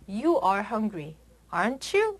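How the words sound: The pitch rises at the end. The asker is not sure and really wants to know. "끝을 높게 올려서"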